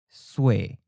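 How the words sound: The final is the ue version. "then follow with the common north or the seacoast leaning accent"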